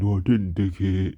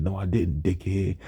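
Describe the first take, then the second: First: Louder parody of a monotone comeback; mocking imitation. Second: Understated comeback without emotion; lifeless monotone. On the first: Classmate repeating his words back, mocking imitation. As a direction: parrot it back to make fun of him. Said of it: "people made fun of the way I talked". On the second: Retold or imitated. Teased student who couldn't really respond, lifeless monotone. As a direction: say it with no life at all. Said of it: "talk with life or emotion at all".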